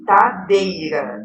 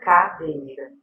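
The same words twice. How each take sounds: First: The first sound is a T instead of K. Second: The first sound is a K sound. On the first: The speaker calls it wrong. "substitui os fonemas K e G pelas letras D e T" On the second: The speaker calls it right. "que seria cadeira"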